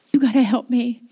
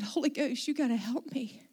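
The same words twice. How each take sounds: First: Louder, insistent retold prayer; urgent plea. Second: Soft, retold prayer for help; quiet plea. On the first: Pastor begging the Holy Ghost again, loud and urgent. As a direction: press the plea home, loud. Same plea repeated with force. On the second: Pastor with buckled knees asking for help, softly. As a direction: plead softly to yourself.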